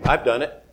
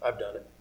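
First: Said in the usual way. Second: Much softer, almost under the breath; "I've done it" said low and hushed as a confession; quiet admission. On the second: Real, not acted.

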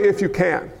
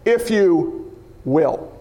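First: Said in the usual way. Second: Slow, with "will" set apart and low; pause, then land "will" firmly; stress on "will". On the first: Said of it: "Don't pray". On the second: Shown as a demonstration. Preacher correcting how to pray, slow weight on "will". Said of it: "Don't pray, If you can".

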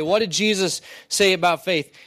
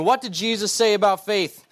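First: "say" lifted, "faith" drawn down; stress on SAY. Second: "What" punched high, rest falling; stress on WHAT. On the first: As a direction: repeat the question landing on "say". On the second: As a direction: ask it hitting the word "What". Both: Shown as a demonstration.

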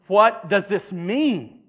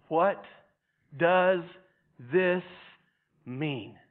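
First: "What does this mean" drawn out slowly and louder, "What" stretched. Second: "What does this mean" with a pause after each word. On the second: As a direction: let "What", "does", "this", "mean" stand alone, spaced out, with "mean" falling. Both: Shown as a demonstration.

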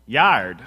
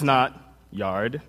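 First: YARD with a nasal Midwestern "yaard" vowel; nasal Midwestern accent. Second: Said in the usual way. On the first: Shown as a demonstration. Preacher showing how Michigan says it, nasal Midwestern accent. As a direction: punch "yard" with a flattened Midwestern A. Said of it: "it's kind of that nasally". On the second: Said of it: "it goes something like this".

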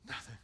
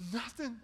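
First: Nothing dropped to a near hush; soft nothing. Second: NOTHING rising to a loud cry; repeated word climbing in force; building emphasis. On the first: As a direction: let nothing fall away quietly. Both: Real, not acted. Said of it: "I bring nothing to the table".

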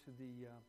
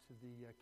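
The two takes are said the same way.

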